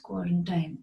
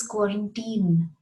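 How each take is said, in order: First: "quarantine" ending in -tine like "time"; wrong quarantine. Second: Put-on "quarantine" ending in -teen; corrected "quarantine", -teen; right quarantine. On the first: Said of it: "It is quarantine". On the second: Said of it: "It isn't quarantine". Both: Shown as a demonstration.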